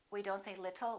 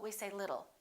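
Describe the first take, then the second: First: The middle consonant is a clear T. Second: The middle consonant is a fast D. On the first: The speaker calls it wrong. "We don't say" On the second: The speaker calls it right. "we say"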